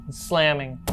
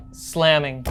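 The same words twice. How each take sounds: The two takes are said the same way.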